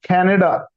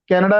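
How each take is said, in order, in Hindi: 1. C में हवा का झोंका है। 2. C में हवा का झोंका नहीं है। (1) "सी के साथ होगा तो वो भी खा की साउंड बन जाएगी" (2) "कनाडा नहीं है वर्ड"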